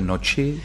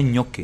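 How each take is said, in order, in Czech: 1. Začíná na prosté n a končí na chi. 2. Začíná na měkké ny a končí na ki. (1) "nebo chce noči" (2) "ale ono to správně je ňoky"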